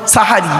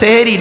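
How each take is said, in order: First: The first vowel is an a sound. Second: The first vowel is an e sound. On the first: It refers to the pre-dawn meal. The speaker calls it right. "ওটা হলো সাহারি" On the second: It refers to magic. The speaker calls it wrong. "ওটা সেহেরি নয়"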